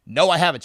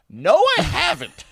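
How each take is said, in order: First: Said in the usual way. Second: Much higher, protesting retort; insistent mock denial. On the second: Storyteller denying her accusation once more, high-pitched protest. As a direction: imitate yourself protesting, pitch shooting up. Escalated denial in retold argument.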